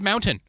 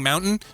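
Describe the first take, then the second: First: The middle t is pronounced clearly and fully. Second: The middle t is swallowed into a glottal catch. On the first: "I said it right so that they would understand it" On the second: "Instead of saying mountain"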